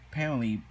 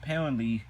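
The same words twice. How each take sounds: The two takes are said the same way.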